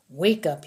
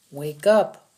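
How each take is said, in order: First: Commanding. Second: Sharp loud order to wake up; a soldier shouting at a dazed captive to wake; louder command. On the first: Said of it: "he commanded". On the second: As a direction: bark "Wake up" at him. Lopez slapping prisoner awake. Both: Acted.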